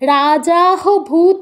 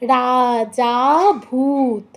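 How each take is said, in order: First: An h sound follows the final vowel of raja. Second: The final vowel of raja is held extra long. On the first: The speaker calls it wrong. "রাজাহ ভূত বলবেন না" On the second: The speaker calls it right. "যাতে আমাদের বেশি time দিতে হবে যেহেতু পরে লুপ্ত আছে"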